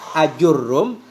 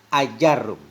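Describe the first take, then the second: First: The vowel after the j sound is u. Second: The vowel after the j sound is a. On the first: This is one scholar's reading of the name. "Menurut Ibnu Anqa ajurrum; dhammah jim" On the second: This is another scholar's reading of the name. "menurut Syekh Jamal Mutayyab ajarrum; fathah jim"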